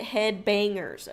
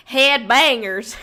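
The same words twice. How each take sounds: First: Said in the usual way. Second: Drawn-out accent on "Head bangers"; put-on accent. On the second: Shown as a demonstration. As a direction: lean into a slow, exaggerated accent. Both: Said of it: "like, a accent".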